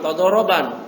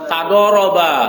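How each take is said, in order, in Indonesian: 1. Kata itu berakhir dengan bunyi n yang ditambahkan. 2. Kata itu berakhir dengan vokal biasa. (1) "jangan tadoroban" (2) "Tadoroba, jangan tadoroban"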